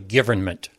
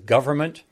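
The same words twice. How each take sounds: First: The middle vowel is said like an 'i'. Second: The middle vowel is said like an 'o'. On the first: The speaker calls it wrong. "not an I" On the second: The speaker calls it right. "It's an O"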